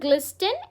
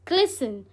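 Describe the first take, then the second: First: A t sound is pronounced after the s. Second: No t sound is pronounced after the s. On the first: The speaker calls it wrong. "It's not ग्लिस्टन" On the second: The speaker calls it right. "It's ग्लिसन"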